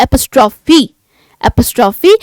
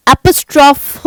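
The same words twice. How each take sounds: First: एपोस्ट्रॉफी with a clear long ee at the end; right pronunciation. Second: एपोस्ट्रॉफ said ending on a bare f, no final ee; wrong pronunciation. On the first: Teacher giving students the correct एपोस्ट्रॉफी with its ending fee. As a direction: finish एपोस्ट्रॉफी on a full fee sound. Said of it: "आप क्या बोलते हैं?". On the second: Teacher showing students the mistake, एपोस्ट्रॉफ cut off at the f. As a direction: clip एपोस्ट्रॉफ short after the f sound. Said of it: "एपोस्ट्रॉफ नहीं बोलते". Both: Shown as a demonstration.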